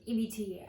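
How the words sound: It is said very fast.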